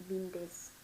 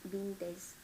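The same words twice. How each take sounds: No difference in how they are said.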